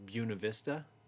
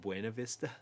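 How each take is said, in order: First: It is said with a local English pronunciation. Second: It is said with a Spanish pronunciation. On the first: "we pronounce them all incorrectly" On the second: "instead of"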